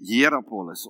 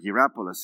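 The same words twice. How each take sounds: First: The name is pronounced the Greek way. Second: The name is pronounced the English way. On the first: "I always say it in the Greek way" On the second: "as you would say"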